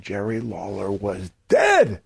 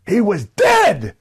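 First: Said in the usual way. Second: High, slow shouted "He was dead"; vociferous repeat. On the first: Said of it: "you emphasize that second point". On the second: Shown as a demonstration. Promo line repeated to the crowd, shouted high and slow. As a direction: roar the repeat with much more force. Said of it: "the same point a second time, but with much more vociferousness".

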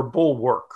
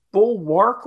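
First: "bulwark" with the second syllable like "work"; "bulwark" rhyming its ending with "work"; BULWARK, second pronunciation. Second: "bulwark" with the second syllable as "wark"; careful "bulwark", two separate syllables; BULWARK, first pronunciation. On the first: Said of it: "I always thought it was bulwark". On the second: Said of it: "is it bulwark or bulwark?". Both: Shown as a demonstration.

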